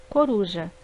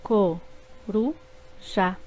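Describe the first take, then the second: First: Said in the usual way. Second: Co-ru-já said very slowly in three beats; syllables split apart, slow. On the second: Shown as a demonstration. Teacher slowly dividing co-ru-já for pupils. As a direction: drag out co-ru-já syllable by syllable. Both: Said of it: "formadas por três sílabas".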